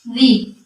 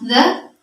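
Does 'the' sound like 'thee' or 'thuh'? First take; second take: thee; thuh. First: It is said with a long 'ee' vowel. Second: It is said with a short 'uh' vowel. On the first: It is used before a word starting with a vowel. "the itu dia digunakan untuk kata yang diawali huruf vokal" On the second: It is used before a word starting with a consonant. "Kalau the itu digunakan kalau kata setelahnya berawal huruf konsonan"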